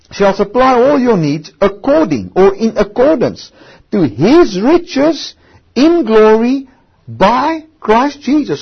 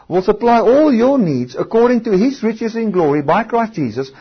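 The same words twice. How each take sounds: First: Each phrase of "shall supply all your needs according or in accordance to his riches in glory by Christ Jesus" drawn out, with "his riches" very slow; preacher leaning hard on "to his riches in glory"; slow emphatic reading. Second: Said in the usual way. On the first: Shown as a demonstration. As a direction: dwell on "his riches", slowing right down on each word. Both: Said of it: "in accordance to what will your needs be met".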